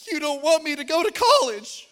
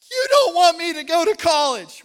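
First: Put-on high, loud wailing child's cry. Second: Put-on high, loud sobbing cry of a small boy; sobbing child. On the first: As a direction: wail it like a heartbroken seven-year-old. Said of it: "he comes back out and he's crying". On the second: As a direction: cry it out, even more heartbroken. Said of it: "he's crying".

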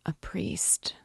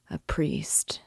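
First: Faint, softer husky whisper; barely a breath of voice; whispered again. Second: Breathless dying whisper; barely voiced, asking for a priest; husky whisper. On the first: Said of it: "the dying man said again". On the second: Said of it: "he articulated huskily". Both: A narrator's reading.

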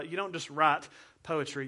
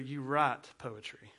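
First: Said in the usual way. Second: "poetry" drawn out slow, with a showy flourish. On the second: Shown as a demonstration. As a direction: say "poetry" slowly, like a grand poet.

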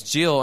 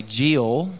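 First: Said in the usual way. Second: Jill with a long Southern "ee-ul" vowel; Alabama pronunciation. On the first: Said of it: "I've tried to fix that". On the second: Shown as a demonstration. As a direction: stretch Jill toward "Jee-ul". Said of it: "in Alabama I say Jill".

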